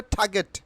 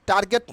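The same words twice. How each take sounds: First: "টার্গেট" with aspirated t, silent r; corrected pronunciation. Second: "টার্গেট" with hard t and sounded r; mistaken pronunciation. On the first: Teacher answering her own quiz, corrected pronunciation. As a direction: say "টার্গেট" as "thaa-get". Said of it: "কি হবে?". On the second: Teacher rejecting the wrong form, mistaken pronunciation. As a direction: say "টার্গেট" as "tar-get". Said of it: "টার্গেট না". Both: Shown as a demonstration.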